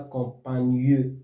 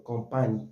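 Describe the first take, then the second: First: Campagneux with the mute e sounded out as a final eu; a deliberately wrong reading with the e spoken; wrong pronunciation. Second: Campagne with the final e silent, said as one closing syllable; the right reading with the mute e dropped; correct pronunciation. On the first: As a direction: say campagneux, voicing the e at the end. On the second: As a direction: say campagne, ending on the gn with no vowel after. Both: Shown as a demonstration. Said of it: "On ne dit pas campagneux".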